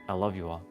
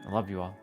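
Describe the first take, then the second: No difference in how they are said.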